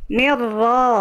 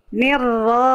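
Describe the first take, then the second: Both takes have the same delivery.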